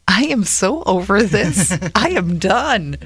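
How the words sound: It is said warmly, with a smile.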